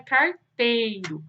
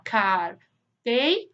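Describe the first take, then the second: First: Said in the usual way. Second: "carteiro" slowly split as car, tei, ro; long pauses between the syllables of "carteiro". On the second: Shown as a demonstration. Teacher dividing a word for pupils, "carteiro" slowly syllable by syllable. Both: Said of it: "quando for se separar".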